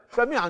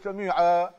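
First: The word ends with an -an nunation sound. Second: The word ends with a lengthened -aa vowel.

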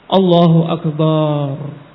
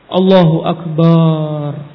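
Both takes have the same delivery.

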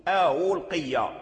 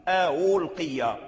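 The two takes are said the same way.

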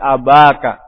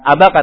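First: The vowel after 'ab' is long. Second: The vowel after 'ab' is short. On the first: The speaker calls it right. "tapi abaka" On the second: The speaker calls it wrong. "Bukan abaka"

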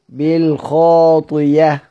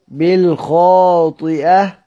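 First: A y sound replaces the glottal stop. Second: A glottal stop follows the i vowel. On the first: This is how it is read when pausing in Hamza's reading. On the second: This is the reading that keeps the hamza.

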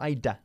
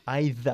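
First: The tongue stays behind the teeth for the consonant. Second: The tongue sits between the teeth for the th. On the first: The speaker calls it wrong. "no either" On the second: The speaker calls it right. "Sacando la lengua otra vez entre los dientes"

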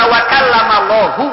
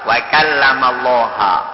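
First: The name ends with a u vowel. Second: The name ends with an a vowel. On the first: God is the one who spoke to Moses. The speaker calls it right. "Allahunya dirafakkan di domah" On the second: Moses is the one who spoke to God. The speaker calls it wrong. "Musa yang berbicara dengan Allah"

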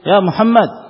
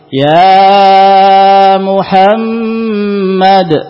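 First: The vowels are kept at normal length. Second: The vowels are stretched out far too long. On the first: It is an ordinary call to someone. The speaker calls it right. "Yang namanya memanggil, ya seperti seorang memanggil" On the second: Nobody really calls someone this way. The speaker calls it wrong. "Ada enggak orang memanggil seperti ini?"

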